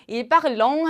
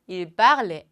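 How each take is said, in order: First: The verb ends with a nasal 'on' sound. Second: The verb ends silently with no added vowel. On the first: The speaker calls it wrong. "하면 절대 안 돼요" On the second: The speaker calls it right. "이쪽에 있는 발음과 완전히 똑같다"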